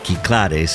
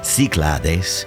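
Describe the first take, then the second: First: The name is pronounced with its Greek sounds. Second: The name is pronounced with its English sounds. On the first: "the pronunciation in Greek" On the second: "in English it's"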